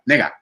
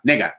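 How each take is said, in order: Both takes have the same delivery.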